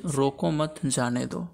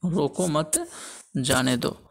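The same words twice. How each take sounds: First: Slow, रोको set apart from मत जाने दो; group मत with जाने दो, after रोको; comma after रोको. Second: रोको मत, then a clear pause before जाने दो; comma after मत. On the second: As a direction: lift मत, pause, drop onto जाने दो. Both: Shown as a demonstration. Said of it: "अल्प विराम चिन्ह का प्रयोग अलग-अलग स्थानों पर".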